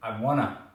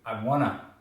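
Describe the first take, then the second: First: The words are run together into a contraction. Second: The words are run together into a contraction.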